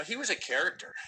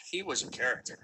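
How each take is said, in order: First: "was" lifted high and leaned on; he WAS a character, pushing "was"; stress on was. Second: "He" hit first and the rest falls; HE was a character, leading with "He"; stress on he. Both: Shown as a demonstration.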